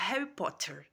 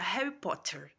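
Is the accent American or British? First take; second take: American; American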